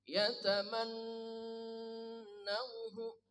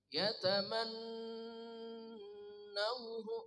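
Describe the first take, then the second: No difference in how they are said.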